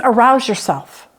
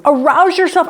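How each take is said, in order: First: Said in the usual way. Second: "Arouse yourself" pitched higher and pushed hard; urgent wake-up call. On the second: Retold or imitated. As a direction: shout it up at a sleeping God. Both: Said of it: "You're opening the curtain saying".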